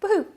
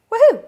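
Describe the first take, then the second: First: Said in the usual way. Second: Big high whoop of joy; excited cheer. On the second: Real, not acted. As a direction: shout it out in celebration. Loud celebratory cheer.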